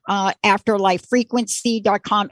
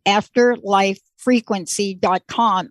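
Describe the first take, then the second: First: Said in the usual way. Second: Afterlife frequency dot com said slowly, word by word; slow emphatic web address. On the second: Shown as a demonstration. Host repeating the website for listeners, slow and deliberate. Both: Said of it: "Everybody listen".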